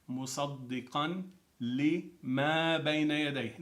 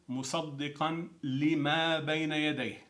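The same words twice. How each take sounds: First: It is said slowly. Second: It is said at normal speed.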